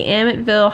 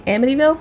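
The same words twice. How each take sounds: First: "Amityville" said as "Amitville"; mispronounced Amityville. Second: "Amityville" with all four syllables, AM-i-tee-vil; careful, higher "Amityville" with a questioning rise; correctly pronounced Amityville. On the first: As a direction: drop the middle "ee" in "Amityville", saying "Amit-vil". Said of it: "did I say it wrong?". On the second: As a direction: sound out the "ee" in "Amityville", checking it's right. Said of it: "I did it". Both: Real, not acted.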